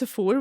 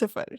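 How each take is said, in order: First: The name is said like Sephora. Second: The name is said like Sifar. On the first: The speaker calls it wrong. "still people pronounce it as Sephora, which I'm very confused about" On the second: The speaker calls it right. "So it is Sifar"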